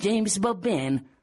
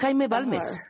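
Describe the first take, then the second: First: The name is pronounced as English words. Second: The name is pronounced as Spanish words. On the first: The speaker calls it wrong. "Gira a la derecha en" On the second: The speaker calls it right. "Es Jaime Balmes"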